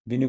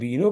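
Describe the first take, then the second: First: Both vowels in the word are short. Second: Both vowels in the word are long. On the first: The speaker calls it right. "बिनु में ब पर छोटा ही है" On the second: The speaker calls it wrong. "बिनु की जगह बीनो कर दिया तो ये तेरह की जगह पंद्रह मात्रा आ जाएंगी"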